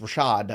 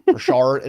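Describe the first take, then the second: First: No r sound comes before the final d. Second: An r sound comes before the final d. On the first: The speaker calls it right. "No, it's just Rashad" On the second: The speaker calls it wrong. "it's just my New York accent once in a while creeping in"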